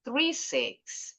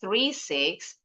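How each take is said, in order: First: Very slow "three six", dropping on "six"; falling final intonation. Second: Very slow "three six", raised on "six"; rising intonation. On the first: Teacher telling listeners the digits have ended, falling intonation. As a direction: bring "three six" down to a close. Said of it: "terakhir intonasinya turun". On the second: Teacher contrasting this group with the last, rising intonation. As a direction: keep "three six" up, not finished yet. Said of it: "Intonasinya beda tuh ya". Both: Shown as a demonstration.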